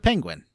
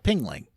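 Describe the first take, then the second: First: The word is said the standard way, 'penguin'. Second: The word is said as 'pingling', ending in 'gling'.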